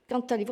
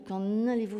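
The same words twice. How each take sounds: First: Quand links to allez with a t sound. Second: Quand is not linked to allez. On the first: The speaker calls it right. "On le prononce sous la forme d'une liaison" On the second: The speaker calls it wrong. "On ne dit pas"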